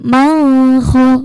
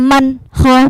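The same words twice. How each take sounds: First: The n is held with a lingering nasal hum. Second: The n is released cleanly without a nasal hum. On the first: The speaker calls it wrong. "bukan man kho, bukan" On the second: The speaker calls it right. "Kalau jelas langsung"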